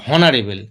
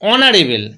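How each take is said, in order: First: The word starts with an audible h sound. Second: The word starts directly with a vowel sound. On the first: The speaker calls it wrong. "আমরা কেউ বলি না হনারেবেল" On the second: The speaker calls it right. "এইচ এর উচ্চারণটা হচ্ছেই না"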